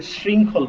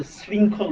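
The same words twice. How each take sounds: First: শৃঙ্খল with sh, as 'shringkhol'; sh sound, not used. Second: শৃঙ্খল with a plain s, as 'sringkhol'; plain s sound. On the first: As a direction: begin শৃঙ্খল with a hushing sh. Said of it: "এটাকে শৃঙ্খল বলি না". (শৃঙ্খল-এর শুরুতে তালব্য শ, sh-এর মতো) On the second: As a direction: begin শৃঙ্খল with English s, not sh. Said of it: "আমরা কিন্তু এটাকে বলি". (শৃঙ্খল-এর শুরুতে দন্ত্য স, ইংরেজি s-এর মতো) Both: Shown as a demonstration.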